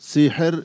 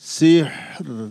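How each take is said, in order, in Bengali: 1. h-এর পরে একটি ছোট স্বরধ্বনি যোগ করা হয়। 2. h-কে কোনো স্বরধ্বনি ছাড়াই ধরে রাখা হয়। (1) "সিহের হায়ের মধ্যে হরকত পড়ে গেছে" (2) "হা সাকিন"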